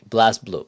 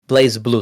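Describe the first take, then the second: First: The first word has a short 'a' vowel. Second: The first word has a long 'ay' vowel. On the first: The speaker calls it right. "It's Blaz Blue" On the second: The speaker calls it wrong. "I keep saying it wrong"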